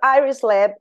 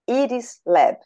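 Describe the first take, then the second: First: The name is said with English pronunciation. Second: The name is said with Brazilian Portuguese pronunciation. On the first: "Iris Lab is the international name of the lab" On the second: "we pronounce it in Brazilian Portuguese, we pronounce it Iris Lab"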